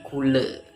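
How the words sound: The word ends with an 'e' vowel. "di Serang, Cilegon dan juga Banten itu dibaca menjadi kule"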